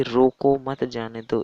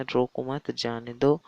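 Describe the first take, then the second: First: रोको loud and drawn out, pause, then मत जाने दो; pause after रोको. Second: Slow रोको मत, pause, then जाने दो; group रोको मत together, break before जाने दो; pause after मत. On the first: Teacher showing how a comma changes meaning, pause after रोको. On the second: Teacher giving third example of punctuation, pause after मत. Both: Shown as a demonstration. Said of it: "आप जहाँ रुकते हैं तो वहाँ पर".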